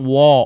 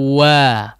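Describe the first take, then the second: First: The lips stay rounded, giving an 'o' vowel. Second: The mouth opens wide for a clear 'a' vowel. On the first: The speaker calls it wrong. "jangan wo" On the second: The speaker calls it right. "wa dibuka lagi"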